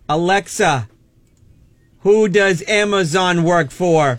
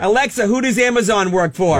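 First: It is said slowly and deliberately. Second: It is said at normal speed.

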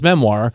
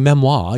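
First: The word is pronounced in an English way. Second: The word is pronounced in a French way. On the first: "the English way to say memoir is memoir" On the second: "you're doing it in the French way"

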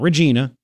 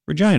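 First: It is not said like the Saskatchewan city. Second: It is said like the Saskatchewan city. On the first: "Not Regina" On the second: "people from Canada that pronounce it Regina, Saskatchewan"

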